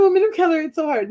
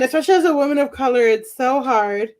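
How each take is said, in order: First: Higher-pitched, self-mocking complaint; playful higher-pitched whine; mock lament. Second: Said in the usual way. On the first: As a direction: parody your own plea, voice lifted. Repeats own line in mock lament.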